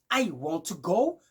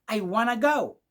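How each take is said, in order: First: 'Want to' is said as two full words. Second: 'Want to' is run together as 'wanna'.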